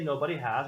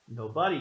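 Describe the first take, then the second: First: The word has is said in full. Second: The word has is contracted to a final s. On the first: The speaker calls it wrong. "We don't say nobody has" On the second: The speaker calls it right. "we say nobody's"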